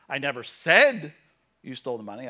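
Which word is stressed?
said. The word "said" carries the main stress. It was written, not spoken aloud. "I posted it on Facebook, but I never said you stole the money"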